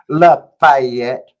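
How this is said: It is said in a high, self-righteous voice. It mimics how other people say the name. The speaker calls it wrong. "they get that whole high pitched, self righteous"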